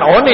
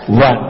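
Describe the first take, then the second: First: The word is read letter by letter. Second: The word sounds like 'wan'. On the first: The speaker learned English without a teacher. The speaker calls it wrong. "Kalau yang punya guru bukan one" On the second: The speaker learned English from a teacher. The speaker calls it right. "ini bacaannya one"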